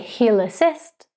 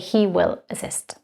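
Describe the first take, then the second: First: He will is contracted to one syllable. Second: He will is said as two full words. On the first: The tone is casual, not professional. The speaker calls it wrong. "We don't say" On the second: The tone stays professional. The speaker calls it right. "We say"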